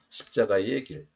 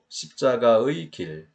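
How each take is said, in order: First: The particle 의 is pronounced as a shortened vowel. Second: The particle 의 is pronounced with its full vowel. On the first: "의를 줄여서 소리를 내는 경우도 많아요" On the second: "대개는 음가를 소리값을 다 내도 되지요"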